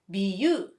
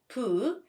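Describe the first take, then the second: First: The syllable begins with a voiced b sound. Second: The syllable begins with a voiceless p sound. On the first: "and the second one as bu" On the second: "You pronounce the first 부 as pu"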